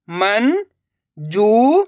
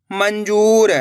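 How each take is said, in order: First: मंजूर drawn out syllable by syllable. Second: Said in the usual way. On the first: Shown as a demonstration. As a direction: spell out मंजूर slowly. (मंजूर को अक्षर-अक्षर बोलना) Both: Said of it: "देखिए किस तरीके से".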